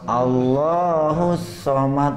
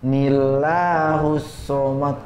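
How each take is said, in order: First: The phrase starts with an 'a' sound. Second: The phrase starts with an added 'ni' sound. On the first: The speaker calls it right. "Lanjutnya Allahus somad" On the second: The speaker calls it wrong. "bukan nillahus somad"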